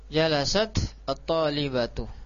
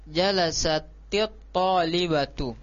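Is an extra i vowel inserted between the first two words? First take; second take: no; yes. First: The first word ends in a bare t. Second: An i vowel links the t to the next word. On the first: The speaker calls it wrong. "di sini ketemu dua sukun" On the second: The speaker calls it right. "ketika di kasro ini kan cara bacanya jadi enak"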